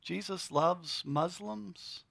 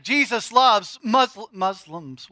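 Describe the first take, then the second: First: Softer, slow, deliberate with weight on loves; quiet restatement. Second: Loud, slow, emphatic proclamation with stress on loves; blurted bold. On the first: Preacher repeats to congregation, quiet and slow. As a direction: say it again gently, letting it land. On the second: Preacher proclaims to congregation, bold and loud. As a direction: declare it boldly to the crowd. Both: Shown as a demonstration. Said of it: "did that come out of my mouth?".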